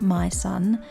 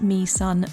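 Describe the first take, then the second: First: The first word sounds like 'my'. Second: The first word sounds like 'me'. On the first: The speaker calls it wrong. "not My Son" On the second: The speaker calls it right. "It's pronounced Me Son"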